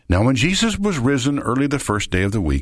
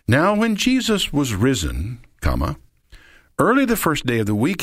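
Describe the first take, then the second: First: It runs on with no pause after risen. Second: There is a pause after risen.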